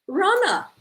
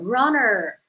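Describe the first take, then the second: First: The final r sound is dropped. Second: The final r sound is strongly pronounced.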